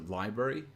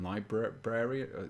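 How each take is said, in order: First: The first R sound is left out. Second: The first R sound is clearly pronounced. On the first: "library without this first R" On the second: "rather than library"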